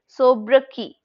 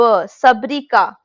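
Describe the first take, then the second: First: The word ends with a 'kay' sound. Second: The word ends with a 'kah' sound. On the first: The speaker calls it right. "That's how we pronoun pronounce it" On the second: The speaker calls it wrong. "ka can never be this Q"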